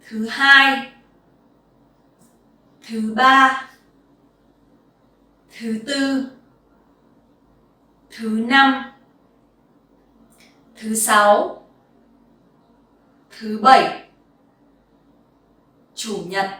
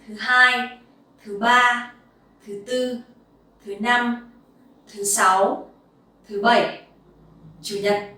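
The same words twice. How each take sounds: First: The list is read at a slower pace. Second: The list is read at a faster pace.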